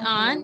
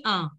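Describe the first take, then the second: First: An with a sounded "n"; an said as "ahn" with full n; wrong nasal. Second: A as a nasal "ah", no n; a said through the nose; correct nasal sound. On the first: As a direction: show the mistaken an, n pronounced. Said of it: "not an". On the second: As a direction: model a without sounding the n. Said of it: "it has to be a". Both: Shown as a demonstration.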